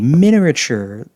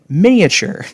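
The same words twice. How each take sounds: First: The word is said with extra r sounds. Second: The word is said without extra r sounds. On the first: The speaker calls it wrong. "I added in a few extra R's that first time" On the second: The speaker calls it right. "Let's try that again"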